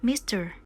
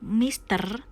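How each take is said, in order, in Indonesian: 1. R di akhir diucapkan dengan gaya Inggris. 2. R di akhir diucapkan dengan gaya Indonesia. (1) "tapi mister" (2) "kita nggak ngucapin mister"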